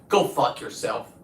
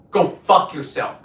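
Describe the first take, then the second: First: Said in the usual way. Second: Slower, louder, spitting each word; angry repeat. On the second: Real, not acted. Telling off online critics again, now slow and furious. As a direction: lean into the repeat with real venom.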